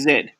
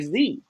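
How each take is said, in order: First: The letter is said the Australian way. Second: The letter is said the American way. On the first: "in Australia, we say Z" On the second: "on Sesame Street, they say Z"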